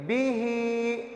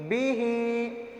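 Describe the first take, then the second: The two takes are said the same way.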